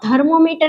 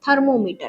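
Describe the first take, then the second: First: It begins with a voiced 'dh' sound. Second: It begins with a voiceless 'th' sound. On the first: The speaker calls it wrong. "ऐसा नहीं होता है" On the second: The speaker calls it right. "ऐसा होता है"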